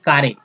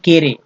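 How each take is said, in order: First: The word is said as 'kaare'. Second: The word is said as 'kere'. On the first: "न कि कारे" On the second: "न कि केरे"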